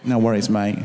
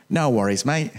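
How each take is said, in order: First: One more mock Australian "No worries, mate"; Australian accent. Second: Mock Australian "No worries, mate"; Australian accent. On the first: Preacher asks if his Australian accent was better. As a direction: try to match the Aussie version. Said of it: "Was that better?". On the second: Preacher showing off his Australian accent to the congregation. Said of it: "That's, that's my Australian accent". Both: Shown as a demonstration.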